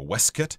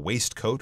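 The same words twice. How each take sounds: First: It is said with the old British pronunciation. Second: It is said with the modern pronunciation.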